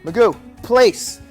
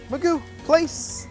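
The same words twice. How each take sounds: First: The command sounds stern and flat. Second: The command sounds light and energetic. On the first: The dog feels it did something wrong. The speaker calls it wrong. "a little dominant. It's a little negative" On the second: The dog feels happy and encouraged. The speaker calls it right. "A little bit more energetic"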